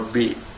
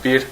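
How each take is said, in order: First: The word ends without any r sound. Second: The word ends with a clear r sound. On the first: "sometimes we pronounce it as B" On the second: "we can pronounce it bir"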